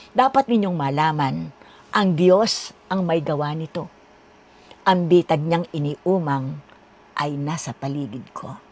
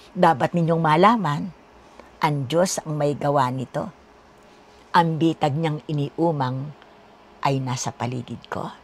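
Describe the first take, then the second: Both takes have the same delivery.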